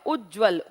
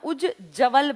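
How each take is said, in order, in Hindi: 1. दूसरा ज सीधे व में जुड़ जाता है। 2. दूसरे ज की आवाज़ के बाद एक पूरा स्वर आता है। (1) "असली कैसे लिखा जाएगा" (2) "अगर आप इसको पढ़ेंगे तो ये बना उज जवल बन गया"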